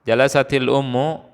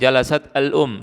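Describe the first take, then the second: First: An i vowel links jalasat to the next word. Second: Jalasat ends in a consonant with no linking vowel. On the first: The speaker calls it right. "sukun ketemu sukun, maka berubah menjadi kasroh" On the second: The speaker calls it wrong. "Kita tidak bisa mengatakan jalasat al-um, sus, tidak bisa diucapkan"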